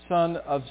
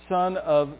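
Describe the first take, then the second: Both takes have the same delivery.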